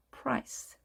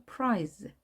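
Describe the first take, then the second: First: 프라이스 as English price, hissed final s; 프라이스 as one syllable with sharp s; English s ending. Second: 프라이즈 as one syllable with weak z; weak z ending. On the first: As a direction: end 프라이스 on voiceless s. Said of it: "모음이 있게 되면 쓰입니다". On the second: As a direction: end 프라이즈 on a lightly buzzed z. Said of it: "비슷하지만 약한 거죠". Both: Shown as a demonstration.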